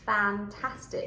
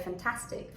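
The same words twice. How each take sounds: First: The first, unstressed vowel is a full 'a' sound. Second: The first, unstressed vowel is reduced to a schwa. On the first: The speaker calls it right. "But it has to be fantastic" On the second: The speaker calls it wrong. "when the vowel is not stressed, it gets reduced, and we are very tempted to say fantastic"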